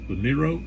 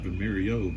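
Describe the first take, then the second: First: The name has no extra syllable before the end. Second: The name has an extra syllable before the end. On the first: The speaker calls it right. "but Vimero" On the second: The speaker calls it wrong. "not Vimerio"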